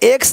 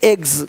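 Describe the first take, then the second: First: The word ends with an s sound. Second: The word ends with a z sound. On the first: The speaker calls it wrong. "एक्स नहीं" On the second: The speaker calls it right.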